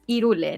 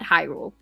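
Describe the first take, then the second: First: The word starts with a vowel, no H. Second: The word starts with an audible H sound. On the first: This is the Spanish pronunciation. The speaker calls it right. "in Spanish, it's Irule" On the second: This is the English pronunciation. The speaker calls it wrong. "not Hyrule"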